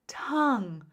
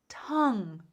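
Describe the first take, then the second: Both takes have the same delivery.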